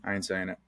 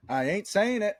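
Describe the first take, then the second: First: Said in the usual way. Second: Much higher-pitched, insistent refusal; emphatic playful refusal. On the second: Real, not acted. Podcast host refusing to name the secret movie, high and insistent.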